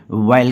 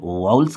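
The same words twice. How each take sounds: First: वायल with an "ai" glide; the other accepted way, वायल as "waa-yal"; वायल with a y glide before l; vowel as "vail". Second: वाउल्स with an "au" glide; one accepted way, वाउल्स as "waauls"; वाउल्स with no e before the l; vowels as "vauls". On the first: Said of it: "कुछ लोग वायल कहते हैं". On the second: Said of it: "कुछ लोग वाउल्स कहते हैं". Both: Shown as a demonstration.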